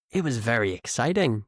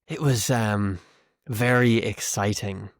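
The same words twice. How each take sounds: First: Said in the usual way. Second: Deadpan irony, dragging out VERY; sarcastic. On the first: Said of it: "if I said it like this". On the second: Shown as a demonstration. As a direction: say it as if you found it very boring. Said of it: "if I'm being sarcastic".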